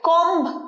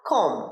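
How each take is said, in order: First: A b sound is heard at the end. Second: The word ends on the m sound. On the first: The speaker calls it wrong. "কম্ব নয়" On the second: The speaker calls it right. "মা সাউন্ডে গিয়ে উচ্চারণটা থেমে যায়"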